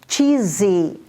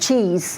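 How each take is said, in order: First: An extra vowel sound ends the word. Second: The word ends on its consonant. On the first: "we insert an I" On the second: "instead of cheese"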